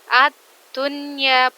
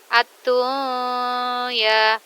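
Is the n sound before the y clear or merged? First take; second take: clear; merged. First: The n is pronounced clearly before the y. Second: The n blends into the following y sound. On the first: The speaker calls it right. "harus dibaca dengan suara jelas" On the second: The speaker calls it wrong. "bukan ad-dunya"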